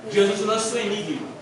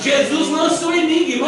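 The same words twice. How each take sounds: First: Said in the usual way. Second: "Jesus lança o enigma" said louder and higher, with the weight on "lança"; emphatic. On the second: Shown as a demonstration. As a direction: proclaim "lança" like a revelation. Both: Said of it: "Olha o enigma que Jesus lança".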